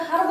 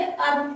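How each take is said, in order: First: हर्ब with the h sounded; wrong reading with H. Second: अर्ब starting on the vowel, no h; silent H. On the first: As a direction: say हर्ब with an audible h at the front. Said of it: "हर्ब नहीं पढ़ के अर्ब पढ़ना है". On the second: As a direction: drop the h from हर्ब to say अर्ब. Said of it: "अर्ब पढ़ना है". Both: Shown as a demonstration.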